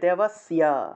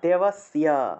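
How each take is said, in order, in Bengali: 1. s-এর পরে y ধ্বনি আসে। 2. s-এর পরে y ধ্বনি আসে।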